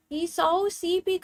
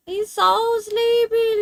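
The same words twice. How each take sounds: First: Said in the usual way. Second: Put-on higher, slow baby talk with a louder swell; high sing-song pet voice; cooing pet talk. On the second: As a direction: gush over the sleepy pet, stretched out.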